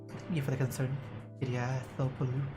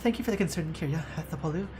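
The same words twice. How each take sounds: First: It is read in the same voice as before. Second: It is read in a different character voice. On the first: The speaker calls it wrong. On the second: The speaker calls it right.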